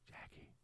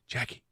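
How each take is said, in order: First: The name is said at its quietest. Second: The name is said at its loudest. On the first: "Say it quieter each time" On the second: "Say it quieter each time"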